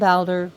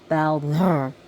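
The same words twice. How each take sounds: First: The R is not rolled and the d is hard. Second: The R is rolled and the d is soft. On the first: "that's between you and the god" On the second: "A softy and a rolled R"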